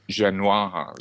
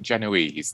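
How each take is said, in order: First: The word is said with a French-style pronunciation. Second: The word is said with a plain English pronunciation. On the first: "if you're being very French" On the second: "some people pronounce it Genoese"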